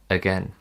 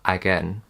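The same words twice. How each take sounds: First: The first vowel is a weak 'uh' sound. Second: The first vowel is a full 'a' sound. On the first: The speaker calls it right. "It's again, uh" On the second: The speaker calls it wrong. "It's not again"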